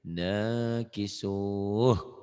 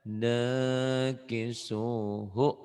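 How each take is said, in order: First: The word ends without its final vowel. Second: The word ends with its final vowel sounded. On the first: It is recited with a stop at the end. "nggak dibaca ya ujungnya kalau dihentikan" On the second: It is sung to a melody without stopping. "Kalau lagunya kan nakisuhu"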